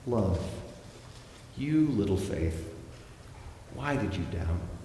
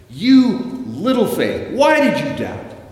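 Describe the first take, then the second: First: It is said in a loving tone. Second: It is said in an angry tone.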